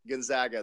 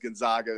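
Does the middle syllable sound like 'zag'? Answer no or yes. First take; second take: yes; no. First: The middle syllable sounds like 'zag'. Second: The middle syllable does not sound like 'zag'. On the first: The speaker calls it right. "no, it's like Zag" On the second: The speaker calls it wrong. "everybody says Gonzaga"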